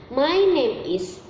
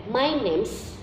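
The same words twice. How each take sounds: First: "My name is" said slowly with each word separate; full form. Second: "my name's" said as two words, name's ending in z; contracted form. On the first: Teacher to pupils showing the full form, slow "My name is". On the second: Teacher to pupils showing the short form "my name's". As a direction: run "name's" together as one syllable. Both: Shown as a demonstration. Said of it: "dan my name's itu sama-sama".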